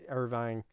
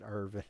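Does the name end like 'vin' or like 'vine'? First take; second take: vine; vin. First: The last syllable has a long 'eye' vowel. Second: The last syllable has a short 'i' vowel. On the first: This is how people elsewhere say the name. "it's it's Irvine out in your guys" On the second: This is how local country people say the name. "out here we pronounce it Irvin because we're rednecks"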